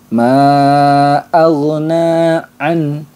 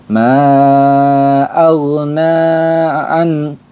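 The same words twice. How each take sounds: Both takes have the same delivery.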